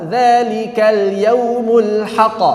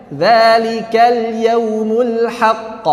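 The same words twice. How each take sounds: First: "haqq" with the doubled q held before stopping; slow chant, press and hold the q of "haqq"; correct reading. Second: "haqq" cut short without the held doubled q; slow chant, "haqq" clipped with no tasydid hold; wrong reading. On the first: Teacher showing students the right way, "haqq" held. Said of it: "Itu kalau nggak ada tasydid". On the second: Teacher showing students the wrong way, "haqq" dropped short. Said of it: "Tidak dibaca". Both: Shown as a demonstration.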